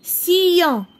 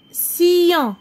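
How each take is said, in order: Both takes have the same delivery.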